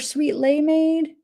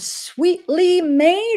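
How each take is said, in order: First: The second syllable is said as 'lay'. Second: The second syllable is said as 'lee'. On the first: The speaker calls it wrong. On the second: The speaker calls it right. "It's got to be Sweetly"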